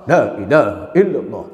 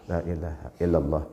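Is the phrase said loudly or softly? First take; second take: loudly; softly. First: The phrase is said loudly and clearly. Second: The phrase is said softly and quietly. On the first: This is the audible form of remembrance. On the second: This is the quiet form of remembrance. "Kalau sir, pelan-pelan"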